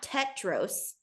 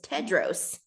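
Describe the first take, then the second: First: The middle consonant is a T sound. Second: The middle consonant is a D sound. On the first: The speaker calls it wrong. "people were definitely saying it with a T" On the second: The speaker calls it right. "oh, it's Tedros, not Tetros"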